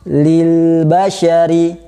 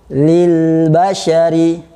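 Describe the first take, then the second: No difference in how they are said.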